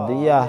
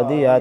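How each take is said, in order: No difference in how they are said.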